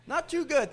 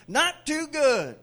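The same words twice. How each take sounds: First: Said in the usual way. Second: Slower, louder, higher echo; slow emphatic repeat. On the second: Acted. Preacher echoing the honest man, slow and loud. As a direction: drag it out for laughs.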